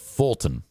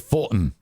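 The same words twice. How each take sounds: First: The T sound in the middle is pronounced. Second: The T sound in the middle is dropped. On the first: The speaker calls it right. "instead of" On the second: The speaker calls it wrong. "Most young people will say"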